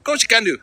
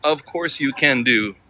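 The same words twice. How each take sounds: First: High, run-together mock Manchester accent; imitated Manchester accent. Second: Slow, word-by-word "Of course you can do"; slowly deciphered. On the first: Streamer mimics the Manchester dog owner's reply, imitated Manchester accent. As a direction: mimic a local's Manchester accent, words slurred into one. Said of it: "What'd you say?". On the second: Shown as a demonstration. Streamer works out what the local said, slow and separated. Spells out the misheard local reply.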